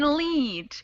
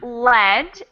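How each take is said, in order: First: The vowel is long, as in 'bead'. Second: The vowel is short, as in 'bed'. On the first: It means to guide or drive along. "long vowel sound" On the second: It names the metal used in paint. "short vowel sound"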